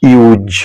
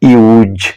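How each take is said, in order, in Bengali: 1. শব্দটি গুঞ্জনের মতো z ধ্বনি দিয়ে শেষ হয়। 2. শব্দটি গুঞ্জনের মতো z ধ্বনি দিয়ে শেষ হয়।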